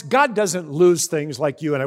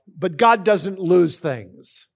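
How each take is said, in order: First: Said in the usual way. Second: Slow, weighty, "God" stressed with a falling tune; slow emphatic restatement. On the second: Shown as a demonstration. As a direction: drive it home word by word. Restated point, slowed down.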